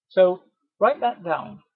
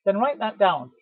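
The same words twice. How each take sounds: First: "write that down" said slowly, each word given weight; slow down and lean on "write that down"; slow emphasis. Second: Said in the usual way. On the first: Shown as a demonstration. Trainer driving home the point to sales staff, slow and emphatic.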